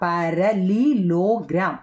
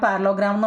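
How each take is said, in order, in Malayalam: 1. ഈ വാക്കിലെ എല്ലാ അക്ഷരങ്ങളും പൂർണ്ണമായി പറഞ്ഞിരിക്കുന്നു. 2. ഈ വാക്ക് വേഗത്തിൽ പറഞ്ഞു, ഒരു അക്ഷരം വിട്ടുകളഞ്ഞു.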